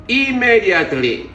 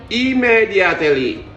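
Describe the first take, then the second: The two takes are said the same way.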